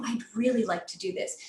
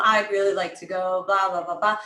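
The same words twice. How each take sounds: First: "really" lifted out of the sentence; "really" stressed, the rest lighter; emphasis on REALLY. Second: "I'd really like to go" droned low on one note; low, unvarying "blah, blah, blah"; predictable monotone. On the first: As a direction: lean on the key word "really". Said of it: "Emphasize very key words". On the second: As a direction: keep "really" and every "blah" level, no emphasis. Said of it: "If your brain can predict a pattern". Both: Shown as a demonstration.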